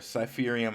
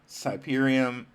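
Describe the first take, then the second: First: The middle consonant sounds like an F. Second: The middle consonant sounds like a B. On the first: The speaker calls it right. "it's cipher like a cipher" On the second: The speaker calls it wrong. "I want to say it with a B like cyber"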